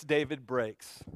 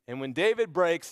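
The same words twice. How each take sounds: First: Slow, much lower, much softer; slow it down and let it sink; hushed and broken. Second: Said in the usual way. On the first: A narrator's reading. Preacher repeating that David breaks, slow and hushed.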